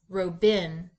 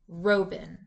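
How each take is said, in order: First: The stress is on the second syllable. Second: The stress is on the first syllable. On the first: "Let's switch the accent" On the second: "accent the first syllable"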